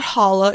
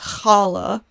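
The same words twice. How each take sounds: First: It starts with a soft plain h sound. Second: It starts with a throaty, rasping h sound. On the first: The speaker calls it wrong. "it's not challah" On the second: The speaker calls it right. "it's challah"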